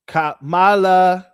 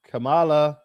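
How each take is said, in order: First: Slow, louder drawn-out call. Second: Said in the usual way. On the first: Shown as a demonstration. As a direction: stretch out the name, louder. Calling Kamala's name.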